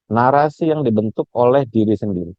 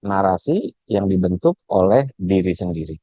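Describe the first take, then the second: First: Said in the usual way. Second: Slow, deliberate repeat of the key phrase; slow emphatic repeat. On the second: Shown as a demonstration. Lecturer repeats the key phrase to webinar students, slow and emphatic. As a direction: spell it out slowly so it sticks.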